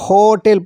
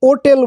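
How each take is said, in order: First: The word starts with an h sound. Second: The word starts directly with a vowel. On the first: The speaker calls it right. "বলছে হোটেল" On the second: The speaker calls it wrong. "এখানে কিন্তু ওটেল বলছে না"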